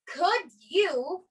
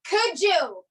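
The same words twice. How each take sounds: First: Each word is said separately and clearly. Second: The words run together as one reduced word. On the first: The speaker calls it wrong. "we don't say could you" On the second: The speaker calls it right. "but could you"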